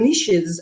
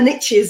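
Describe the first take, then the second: First: It is said 'neeshes', with a long 'ee' vowel. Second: It is said 'nitches', rhyming with riches. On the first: "as we say, it was a French accent here in Europe" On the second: "as you say in America"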